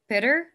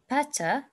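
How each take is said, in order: First: It is said with an American accent. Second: It is said with a British accent. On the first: "better is American English" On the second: "Better is British"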